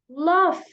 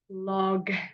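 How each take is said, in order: First: The word ends with an f sound. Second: The word ends with a g sound. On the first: The speaker calls it right. "we pronounce it lof, it's the F sound at the end of the word" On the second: The speaker calls it wrong. "we don't say log"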